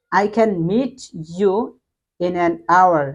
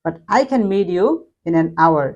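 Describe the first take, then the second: First: Said in the usual way. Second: Meet you said like meedyou; American flapped t in meet you. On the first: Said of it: "মিট বললাম". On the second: Shown as a demonstration. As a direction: soften the t of meet into a d. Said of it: "মিটটাকে কিন্তু আমি মিট বললাম, মিট, টিটাকে ড উচ্চারণ করলাম".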